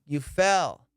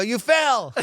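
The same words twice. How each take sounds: First: Said in the usual way. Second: High, loud exasperated answer; frustrated. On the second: Retold or imitated. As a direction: snap it out, pitch raised. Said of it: "gotten a little frustrated".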